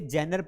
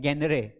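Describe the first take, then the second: First: The word begins with a soft 'j' sound. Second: The word begins with a hard 'g' sound. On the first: The speaker calls it right. "इसे जेनर पढ़ा जाता है" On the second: The speaker calls it wrong. "इस जी को ग पढ़ लेते हैं"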